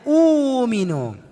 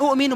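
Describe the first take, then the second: First: The first vowel is long, with no stop. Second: A short vowel is followed by a glottal stop. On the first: The speaker calls it right. "hamzah tambah hamzah dibaca panjang" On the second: The speaker calls it wrong. "bukan u'minu bacanya"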